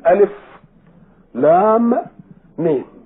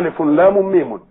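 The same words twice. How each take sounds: First: Each letter name ends in a stop before the next. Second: The three letter names are joined without stops. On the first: The speaker calls it right. "تقراها بالسكون" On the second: The speaker calls it wrong. "ما بتقراهاش وبعضها"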